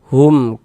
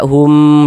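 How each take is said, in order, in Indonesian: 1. Suku katanya dibaca pendek. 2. Suku katanya dibaca panjang. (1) "pendek saja. Hum ka seperti itu" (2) "Jangan dibaca hum dipanjangkan begitu, jangan, salah ya"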